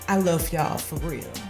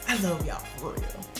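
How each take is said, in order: First: It is said in the speaker's own voice. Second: It is said in an imitated celebrity voice.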